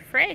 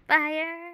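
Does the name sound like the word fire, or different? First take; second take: different; fire. First: The name is said unlike the word fire. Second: The name is said like the word fire. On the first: The speaker calls it wrong. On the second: The speaker calls it right.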